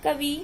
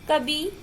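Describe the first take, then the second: First: The final i vowel is short. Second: The final i vowel is long. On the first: The speaker calls it right. "शुद्ध उच्चारण" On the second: The speaker calls it wrong. "लिखते लिखते छोटी है लेकिन बोलते हैं बड़ी"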